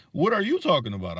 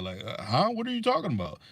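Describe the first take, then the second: First: Said in the usual way. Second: A put-on puzzled voice; mock confusion. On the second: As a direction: pretend not to understand at all. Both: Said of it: "don't even know how to act".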